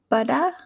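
Spoken in an Australian English accent. "my attempt at an Australian accent"

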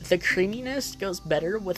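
It is read in a put-on Karen voice.

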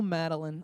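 The name is said warmly and tenderly. Affection for her. "oh, Madeline, I love you"

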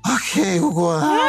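It is said in a slurred, drunk voice.

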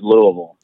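It is said the way locals say it.

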